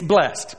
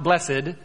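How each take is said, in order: First: The word has one syllable, ending in 'st'. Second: The word has two syllables, ending in 'ed'. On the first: The speaker calls it right. "It's blessed. B-L-E-S-S-T" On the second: The speaker calls it wrong. "It's not blessed"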